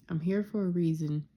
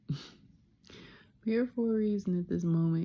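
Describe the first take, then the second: First: Said in the usual way. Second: Repeated with a laugh, a bit higher; amused self-affirmation with a laugh. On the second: Real, not acted. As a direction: laugh it out as it sinks in.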